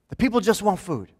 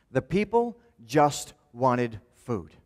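First: Higher and louder, pressing the point; louder, higher restatement. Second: Slow, deliberate, each word weighed; slow emphatic statement. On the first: Preacher hammering the point home to the congregation, louder and higher. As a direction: repeat it with more force. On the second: Preacher stating the point to the congregation, slow. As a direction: lay it down slowly so it sinks in. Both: Shown as a demonstration.

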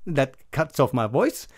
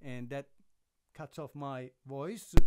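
First: Said in the usual way. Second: Almost silent, like a muted mic; muted input. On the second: Shown as a demonstration. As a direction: voice cut by a pad, barely audible. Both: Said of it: "we have the minus twenty D B".

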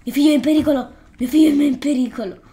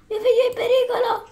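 First: Louder, slightly raised cry of alarm, a bit hammed-up; mock frantic mother. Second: Much higher, fast falsetto wail with a laugh breaking through; hammed-up frantic mother. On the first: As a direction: call out in mock alarm for your child. Voicing a panicked game mother. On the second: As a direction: overplay the mother's panic until you crack up. Same cry, exaggerated and laughing.

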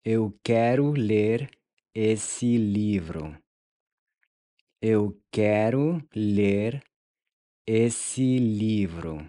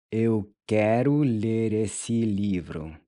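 First: "Eu quero ler" rising, then a slow "esse livro"; slow split phrase. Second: Said in the usual way. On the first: Shown as a demonstration. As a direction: split for repeating, second half slow. ("Eu quero ler", pause, slowly "esse livro") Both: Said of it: "How would you say".

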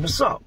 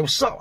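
First: High taunting call as he rushes in; retold challenge. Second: Sharp high call-out, fists raised; retold challenge. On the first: Rushing the cellmate in the pod, a high taunting challenge. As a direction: dare him to swing. Running up on him. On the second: To the cellmate while squaring off, a high challenging call-out. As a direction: throw it at him like a dare.

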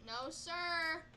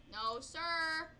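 The two takes are said the same way.

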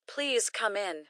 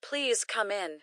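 Both takes have the same delivery.

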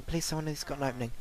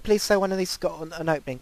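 First: Rushed, under the breath, very fast; fast, softer mutter. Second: Said in the usual way. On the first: Real, not acted. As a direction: mumble it quickly to yourself.

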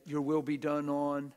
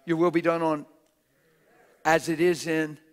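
First: Said in the usual way. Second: Loud, forceful recitation of the prayer; shouted prayer. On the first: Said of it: "You said it". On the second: Shown as a demonstration. Preacher shouting the Lord's prayer at the church. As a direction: hammer every word of the prayer. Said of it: "Isn't that how he said to pray?".

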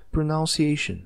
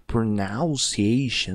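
First: Said in the usual way. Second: Pronunciation dragged very slowly, overdone; exaggerated slow version. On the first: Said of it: "não, mas ó". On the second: Shown as a demonstration. Teacher recalling the exaggerated version for the class, very slow. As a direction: overdo pronunciation, stretching each syllable. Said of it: "fiz uma forma bem puxada".

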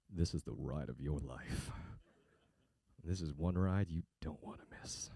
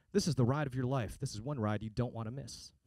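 First: Much lower, softer, slow creepy voice; creepy ad read. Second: Said in the usual way. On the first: Shown as a demonstration. Voiceover guy trolling a car ad with a creepy read. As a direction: read it like a creep whispering in your ear. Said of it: "This is how I read it". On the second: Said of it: "that's how they want me to read it".

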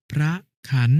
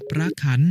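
First: พระขัน split as "phra", pause, "khan"; syllable-by-syllable reading. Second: Said in the usual way. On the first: Shown as a demonstration. Brother showing an exception, syllable by syllable: พระขัน. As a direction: put a gap inside พระขัน. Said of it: "อ่านว่า". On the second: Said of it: "คำว่า".

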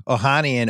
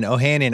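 First: "Ohanian" with the second syllable as open "HAH"; open 'ah' pronunciation. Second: "Ohanian" with "han" as in "hand"; short 'a' pronunciation. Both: Shown as a demonstration. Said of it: "heard it pronounced so many different ways".

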